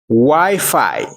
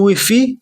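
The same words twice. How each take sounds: First: It is said with an English pronunciation. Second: It is said with a Creole or French pronunciation. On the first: "Mais en anglais c'est Wi-Fi" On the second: "Si on parle bon créole, on parle bon français, on va juste dire Wi-Fi"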